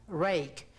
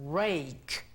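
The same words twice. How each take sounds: No difference in how they are said.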